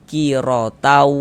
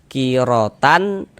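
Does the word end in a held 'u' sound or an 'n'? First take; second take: held u; n. First: The n drops and the final vowel is held. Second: The word ends with a clear n sound. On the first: "maka kita baca kirotau" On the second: "yang seharusnya kita baca kirotan"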